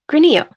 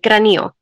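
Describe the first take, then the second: First: The name is said plainly without a Spanish accent. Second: The name is said with a Spanish accent. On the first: "gran, e, yo, granillo" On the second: "if you want to add a Spanish accent to it"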